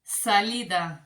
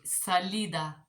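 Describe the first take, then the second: First: Salida said sa-LI-da, Spanish vowels; Spanish word. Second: Salida, Spanish pronunciation; Spanish word. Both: Shown as a demonstration. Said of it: "let's try this".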